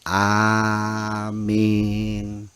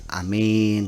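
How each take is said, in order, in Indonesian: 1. Vokal pertama panjang. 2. Vokal pertama pendek. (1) "tapi amin" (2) "Yang benar bukan amin"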